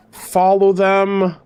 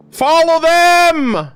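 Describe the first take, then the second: First: Said in the usual way. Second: Higher, louder and slow, pleading with the screen; urgent shout. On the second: Real, not acted. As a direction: yell it out, dragging each word. Urging characters on screen.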